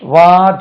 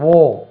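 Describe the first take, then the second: First: The vowel is an open 'ah' sound. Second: The vowel is a rounded 'aw' sound. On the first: The speaker calls it wrong. "இது வார் சொல்லக்கூடாது" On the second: The speaker calls it right. "உச்சரிப்பு இப்படி இருக்கும் பாருங்க"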